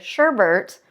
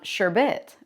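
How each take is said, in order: First: The second syllable has an extra R sound. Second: The second syllable has no R sound. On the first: This is how other people commonly say it. The speaker calls it wrong. "Anytime I hear somebody say sherbet" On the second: This matches how the word is spelled. The speaker calls it right. "there's only one R in sherbet"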